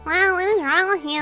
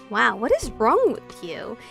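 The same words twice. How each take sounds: First: It is said in a mocking nasal voice. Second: It is said in a normal voice.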